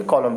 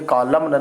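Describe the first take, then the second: First: कॉलम said as kolam, nothing after the m; silent n. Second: कॉलम said with a final n, kolamna; wrong n sounded. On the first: Teacher gives students the right कॉलम, n silent. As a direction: end कॉलम cleanly on the m. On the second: Teacher shows students the wrong कॉलम, n sounded. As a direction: sound the silent n at the end of कॉलम. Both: Shown as a demonstration. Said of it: "कॉलम न नहीं पढ़ेंगे".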